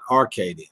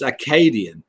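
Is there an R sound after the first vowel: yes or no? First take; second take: yes; no. First: It is said with an R sound. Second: It is said without an R sound. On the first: The speaker calls it wrong. "not Arcadian" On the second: The speaker calls it right. "take out the R out of Arcadian. It's Acadian"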